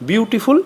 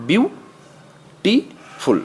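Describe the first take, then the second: First: Said in the usual way. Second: বিউ, টি, ফুল with a clear pause after each; broken into syllables. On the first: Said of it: "একটানে উচ্চারণ". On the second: Shown as a demonstration. Teacher showing three syllables, বিউ ... টি ... ফুল said separately. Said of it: "ভেঙে ভেঙে উচ্চারণ করতে হয়".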